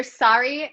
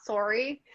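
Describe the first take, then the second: First: "sorry" with an open "sar" vowel; Canadian "sorry". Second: "sorry" with a rounded "sore" vowel; the other "sorry". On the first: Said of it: "I believe you're sorry, not sorry". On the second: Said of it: "not sorry". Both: Shown as a demonstration.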